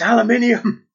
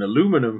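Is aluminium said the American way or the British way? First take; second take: British; American. First: It is said with the British pronunciation. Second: It is said with the American pronunciation. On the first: The speaker calls it right. "I used to scream, it's aluminium!" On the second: The speaker calls it wrong. "you hear someone on American TV, and they go"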